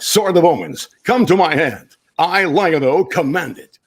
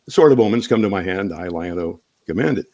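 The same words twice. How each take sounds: First: It is said in a bold broadcast-style voice. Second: It is said in a relaxed conversational voice. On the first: "But on television, it sounds like" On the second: "as I'm sitting here talking to you guys"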